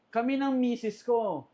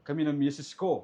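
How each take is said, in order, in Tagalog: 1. Ito ay binabasa sa karaniwang boses ng pagsasalita. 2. Ito ay sinasabi sa pekeng boses na ginagaya. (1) "hindi naman ganyan yung boses ni Papa" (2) "kunyari yung South voice mo"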